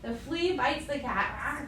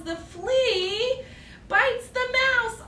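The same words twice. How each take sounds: First: Said in the usual way. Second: Higher, louder and slow, building suspense; slow it down as the flea strikes; dramatic build-up. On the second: Acted. Telling children the flea bites, rising drama.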